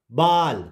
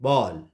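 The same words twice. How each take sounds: First: बाल with a long open 'aa'; wrong vowel. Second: बॉल with a rounded 'aw'; correct vowel. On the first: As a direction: say बाल with 'aa', as the mistaken reading. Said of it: "नहीं पढ़ेंगे". (बाल में 'आ' की आवाज़) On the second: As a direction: say बॉल with 'aw', not 'aa'. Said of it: "ए को आ से". (बॉल में 'ऑ' की गोल आवाज़) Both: Shown as a demonstration.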